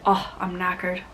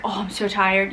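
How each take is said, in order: First: Light British accent on knackered; mock British accent. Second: Said in the usual way. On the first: Shown as a demonstration. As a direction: try a soft British accent. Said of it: "you say". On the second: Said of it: "Instead of saying ... you say".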